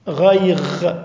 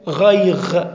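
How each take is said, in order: First: The word ends with a gh sound. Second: The same.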